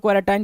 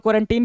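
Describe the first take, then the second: First: "क्वारंटाइन" ending in -tine; alternative pronunciation. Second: Put-on "क्वारंटीन" ending in a long -teen; alternative pronunciation. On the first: Teacher showing one accepted form, "क्वारंटाइन" ending in -tine. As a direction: say "क्वारंटाइन" with the last syllable rhyming with fine. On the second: Teacher showing the other accepted form, "क्वारंटीन" ending in -teen. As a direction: say "क्वारंटीन" with the last syllable rhyming with seen. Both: Shown as a demonstration. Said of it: "pronunciation का बहुत ज़्यादा दिक्कत नहीं है".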